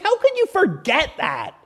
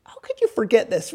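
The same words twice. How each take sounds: First: High, incredulous angelic scolding; oozing with attitude. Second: Understated exasperated question; angelic attitude. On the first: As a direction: demand it in a raised, exasperated pitch. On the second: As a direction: chide them mildly, without raising the voice. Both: Acted. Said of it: "they're just oozing with attitude".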